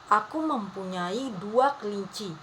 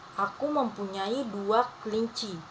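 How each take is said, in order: Both takes have the same delivery.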